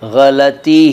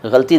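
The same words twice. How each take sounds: First: The word gets its careful standard pronunciation. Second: The word gets its common everyday pronunciation. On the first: The speaker calls it right. "इस शब्द का सही उच्चारण गलती ही है" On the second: The speaker calls it wrong. "गलती नहीं है"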